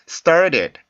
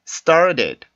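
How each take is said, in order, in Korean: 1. 가운데 t는 빠르게 튀기는 플랩입니다. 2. 가운데 t는 빠르게 튀기는 플랩입니다.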